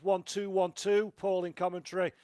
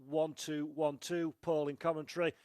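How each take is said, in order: First: It is spoken loudly. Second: It is spoken at a normal volume. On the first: "Now going loud" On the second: "at a normal volume level"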